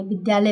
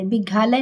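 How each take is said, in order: First: Said in the usual way. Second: विघालय said with a "gha" in place of "dya"; misread with GHA. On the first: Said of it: "विद्यालय पढ़ेंगे". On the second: Shown as a demonstration. Teacher showing students what not to read, विघालय with a "gha". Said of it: "विघालय नहीं पढ़ेंगे".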